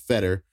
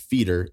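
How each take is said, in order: First: The first vowel is a short 'eh' sound. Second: The first vowel is a long 'ee' sound. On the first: This is how most people say the name. "Everybody in the world pronounces it Fetter" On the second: This is how one stranger said the name. "This guy pronounces it feeder"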